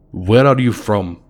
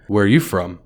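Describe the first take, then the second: First: Put-on a light Russian accent on the question; a stranger quizzing in a Russian accent; lightly done Russian accent. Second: Said in the usual way. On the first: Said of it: "in a very heavy Russian accent". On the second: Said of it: "I asked him".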